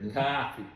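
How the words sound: The word is formed toward the front of the mouth. The speaker calls it wrong. "You see how you're forming it up here?"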